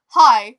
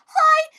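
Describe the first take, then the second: First: It is said in a deep, manly voice. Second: It is said in a high, squeaky voice.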